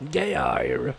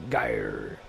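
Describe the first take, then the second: First: Geir with a rolled, pirate-ish ending, like a sailor's growl; a touch of pirate on Geir. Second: Geir dropped very low, a booming gah-yer; deep, growly pronunciation of Geir. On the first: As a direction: say Geir like a pirate would, gey-ah-r. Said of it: "This kinda sounds like a pirate". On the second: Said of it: "I don't wanna sound British". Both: Shown as a demonstration.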